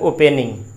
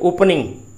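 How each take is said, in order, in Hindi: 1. 'p' के बाद का स्वर पूरा 'e' है। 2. 'p' के बाद का स्वर हल्का श्वा (schwa) है। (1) "इसको अक्सर बच्चे उच्चारण करते हैं ओपनिंग" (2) "जबकि ये है ओपनिंग"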